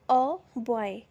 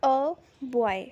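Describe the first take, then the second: First: Said in the usual way. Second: "अ बॉय" drawn out slowly, with "अ" as a short uh; slow model example. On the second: Shown as a demonstration. Teacher slowly models "अ बॉय" for students. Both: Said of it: "first है".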